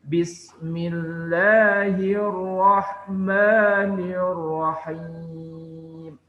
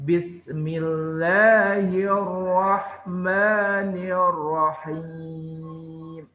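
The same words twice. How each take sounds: No difference in how they are said.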